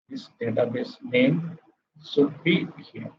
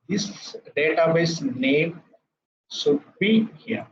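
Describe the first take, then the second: First: Said in the usual way. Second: Slow, with a high lift on be; emphatic teaching stress. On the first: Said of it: "teacher repeats the line softly". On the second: Shown as a demonstration. Tutor drives the point home to students, slow and emphatic. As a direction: lean on should be here for the class. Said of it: "teacher stresses the key line".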